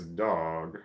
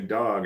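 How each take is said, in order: First: It is drawled, almost like two syllables. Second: It is said short, without a drawl.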